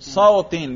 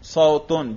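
First: The word ends in the vowel i plus n. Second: The word ends in the vowel u plus n. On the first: The word is in the genitive case. "جر کا کرو" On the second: The word is in the nominative case. "رفع کا تلفظ کرو"

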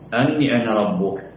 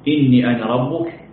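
First: The first word begins with an 'a' vowel. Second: The first word begins with an 'i' vowel. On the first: "وبفتحها بتقدير الباء" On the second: "بكسر الهمزة"

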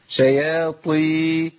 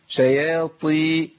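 Both takes have the same delivery.

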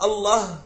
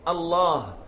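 First: The vowel before the final h is short. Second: The vowel before the final h is long. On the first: The speaker calls it wrong. "إذا قلت الله حرفت" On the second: The speaker calls it right. "فاللفظ الصحيح أن تقول الله"

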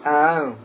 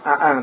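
First: The second glottal stop is softened toward a vowel. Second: The second glottal stop is pronounced fully. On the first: The speaker calls it right. "dibaca tashil antara hamzah dengan alif" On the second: The speaker calls it wrong. "bukan a'ang"

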